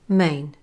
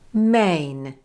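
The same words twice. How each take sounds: First: The word is said quickly and shortened. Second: The word is said slowly and drawn out. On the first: "compare when the sound is said slowly and quickly" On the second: "compare when the sound is said slowly and quickly"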